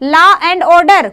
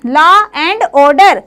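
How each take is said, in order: First: Said in the usual way. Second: Law and order stretched out very slowly; slow, deliberate teacher repeat of law and order. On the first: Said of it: "एलओ". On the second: Shown as a demonstration. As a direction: drag out law and order word by word so it sticks.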